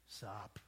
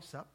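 First: The word is drawn out long. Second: The word is said short and quick.

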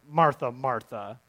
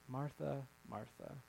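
First: It is said in a harsh, scolding tone. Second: It is said in a gentle, inviting tone.

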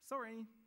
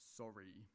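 First: It is said cheerfully. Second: It is said angrily.

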